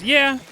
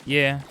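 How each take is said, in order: First: Excited yeah. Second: Said in the usual way. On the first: Real, not acted. Excited agreement with chat.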